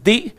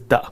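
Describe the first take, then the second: First: The vowel is long, like 'thee'. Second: The vowel is short, like 'thuh'. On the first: It comes before a vowel sound. "when it's used with vowels" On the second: It comes before a consonant sound. "when it's used with consonants"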